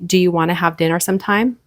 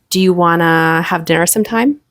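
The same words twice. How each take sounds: First: It is said at a normal, even pace. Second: Part of it is held longer, slowly and suggestively. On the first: "instead of saying" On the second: "hold this for a little bit longer for some suspense"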